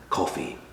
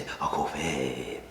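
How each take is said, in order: First: Said in the usual way. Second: Drawn-out put-on regional accent on COFFEE. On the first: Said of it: "in a regional accent". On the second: Shown as a demonstration. Reviewer demonstrating how to say coffee, mock regional accent. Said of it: "say it in a regional accent".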